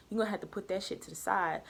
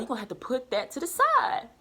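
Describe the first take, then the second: First: Said in the usual way. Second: "put that to the side" pushed higher with firm stress; emphatic retold advice. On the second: Re-quotes her advice with emphasis.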